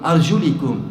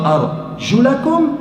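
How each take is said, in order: First: The vowel after 'arjul' is an 'i'. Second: The vowel after 'arjul' is an 'a'. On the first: The feet are to be wiped with a wet hand. "Au lieu du a, vous avez le i" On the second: The feet are to be washed. "Il y en a une qui vous dit wa arjulakum"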